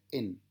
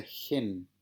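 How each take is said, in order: First: "en" with a clean vowel onset and no h; smooth breathing. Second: "gen" drawn out slowly with a clear J sound at the start; rough breathing. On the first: Teacher showing students how smooth breathing sounds, clean vowel. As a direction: start "en" right on the e, no aspiration. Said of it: "Eso se pronuncia en". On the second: Teacher contrasting rough with smooth breathing for students, slow aspirated. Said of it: "se pronuncia gen". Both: Shown as a demonstration.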